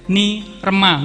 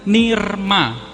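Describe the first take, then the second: First: A vowel is said between r and m. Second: No vowel is said between r and m. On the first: The speaker calls it wrong. "bacanya nggak boleh ni rema" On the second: The speaker calls it right. "Jadi ini dibacanya nirma"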